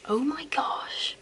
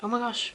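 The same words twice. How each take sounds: First: A slow breathy whisper on Oh my gosh. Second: Said in the usual way. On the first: Acted. Whispering to her friend about the old perfume, slow. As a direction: drag the whisper out, slow and hushed.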